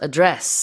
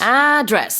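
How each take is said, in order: First: The stress is on the second syllable. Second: The stress is on the first syllable. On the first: It is the noun meaning a formal speech. "강세가 두 번째 음절에 들어가서" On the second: It is the noun meaning where someone lives. "on the first syllable"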